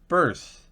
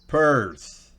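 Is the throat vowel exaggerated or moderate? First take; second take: moderate; exaggerated. First: The throat vowel is moderate and natural. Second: The throat vowel is strongly exaggerated. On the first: The speaker calls it right. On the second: The speaker calls it wrong.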